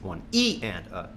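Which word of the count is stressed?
E. The stress falls on the word E. "the accents on the E's"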